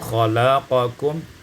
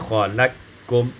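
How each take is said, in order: First: The q is pronounced separately before k. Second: The q is merged into the following k.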